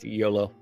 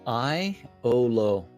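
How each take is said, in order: First: The name begins with a 'yo' sound. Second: The name begins with an 'eye' sound. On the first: The speaker calls it right. "it's YOLO" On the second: The speaker calls it wrong. "YOLO was pronounced Iolo by Econdis"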